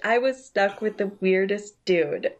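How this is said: It is read in a put-on female voice. The narrator is a woman. The speaker calls it wrong. "I'll still use the girl voice"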